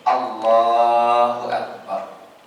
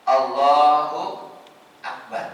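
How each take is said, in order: First: Allahu and Akbar are joined without any pause. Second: There is a pause between Allahu and Akbar. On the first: The speaker calls it right. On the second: The speaker calls it wrong. "antara Allah dan akbar tidak boleh ada jeda ... salah, tidak sah"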